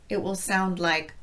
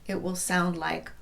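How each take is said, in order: Both takes have the same delivery.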